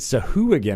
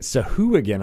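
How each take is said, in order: First: The name is said with an 'ooh' vowel. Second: The same.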